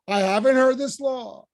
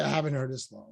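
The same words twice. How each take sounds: First: Said out boldly, a little higher and louder; owning it without shame; rhetorical, unbashful. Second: Softer and lower, sheepish admission; bashful. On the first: Teacher voicing Moses, confident and unbashful. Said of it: "That's rhetorical". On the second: Teacher voicing a bashful Moses, sheepish and soft. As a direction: shrink into the words, embarrassed. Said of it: "which would have been bashful". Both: Shown as a demonstration.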